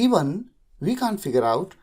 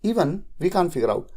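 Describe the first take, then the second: First: There is a short pause after "even". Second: There is no pause after "even". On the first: "थोड़ा सा pause भी देते हैं आप।" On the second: "नहीं भी देंगे, गलत नहीं है"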